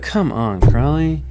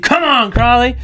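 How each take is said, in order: First: It is said as a frustrated groan. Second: It is said as an upbeat cheer.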